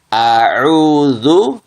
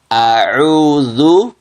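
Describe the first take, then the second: No difference in how they are said.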